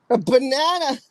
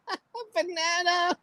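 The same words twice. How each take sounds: First: Said in the usual way. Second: Laughing through the words. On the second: Real, not acted. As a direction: giggles while saying "A banana.".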